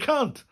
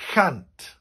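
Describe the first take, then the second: First: The word begins with a hard k sound. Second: The word begins with a throaty ch sound. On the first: "Leave out the H sound. Just say can't" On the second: "Put a ch sound at the beginning of it"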